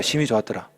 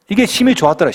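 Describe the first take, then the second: First: 심히 좋았더라 dropped low and soft, breathed in wonder; hushed awe. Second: Said in the usual way. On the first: Shown as a demonstration. Pastor replaying God's verdict as hushed awe. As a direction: say it hushed, stunned. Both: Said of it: "뉘앙스를 살려서".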